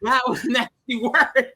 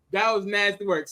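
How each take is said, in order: First: Slow, higher, stretched "that was nasty work"; drawn-out verdict. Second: Said in the usual way. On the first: Real, not acted. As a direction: lean hard into "work", slowly. Emphatic verdict on gross scene.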